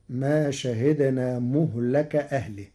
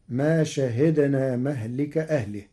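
First: مهلك said muhlak, u on the m, a on the l; Warsh reading of مهلك. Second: مهلك said mahlik, open m, i before k; common reading of مهلك. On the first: Teacher shows Warsh, مهلك as muhlak. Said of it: "بضم الميم وفتح اللام". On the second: Teacher gives the usual reading, مهلك as mahlik. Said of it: "قرأ ورش كلمة مهلك". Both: Shown as a demonstration.

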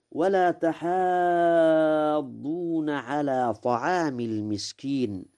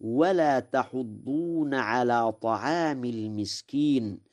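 First: تحاضون with a long held "haa"; long alif reading. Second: تحضون as "tahuddoona"; short rounded u after the h of تحضون; damma without alif. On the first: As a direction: stretch the vowel after the h of تحاضون. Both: Shown as a demonstration. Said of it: "بضم الحاء دون ألف".

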